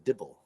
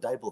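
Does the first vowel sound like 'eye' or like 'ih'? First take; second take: ih; eye. First: The first vowel sounds like 'ih'. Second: The first vowel sounds like 'eye'. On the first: The speaker calls it wrong. "so don't call the Dibble the Dibble" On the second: The speaker calls it right. "You don't call the Bible the Bibble"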